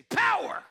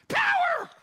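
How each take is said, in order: First: High, loud shout of power. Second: Shrieking high strangled Power; Kramer impression. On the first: Shown as a demonstration. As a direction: belt the word out high. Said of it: "Can you say". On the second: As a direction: yelp like electrocuted. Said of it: "Like Kramer from Seinfeld".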